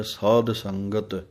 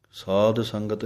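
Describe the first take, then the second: First: ਸਾਧ ਸੰਗਤ ending in a full dh sound; slowly, ਸਾਧ with a clear dh; correct pronunciation. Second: ਸਾਧ ਸੰਗਤ with a plain d instead of dh; ਸਾਧ said as saad, no aspiration; wrong pronunciation. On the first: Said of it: "ਧੱਦੇ ਦੀ ਆਵਾਜ਼ ਦੇਣੀ ਹੈ". (ਧੱਦੇ ਦੀ ਆਵਾਜ਼ ਨਾਲ ਸਾਧ) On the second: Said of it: "ਨਹੀਂ ਕਹਿਣਾ ਦੱਦੇ ਦੇ ਨਾਲ". (ਗਲਤ ਉਚਾਰਨ ਦੱਦੇ ਨਾਲ) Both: Shown as a demonstration.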